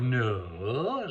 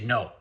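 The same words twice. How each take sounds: First: It is said softly, like a request. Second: It is said firmly, as a command.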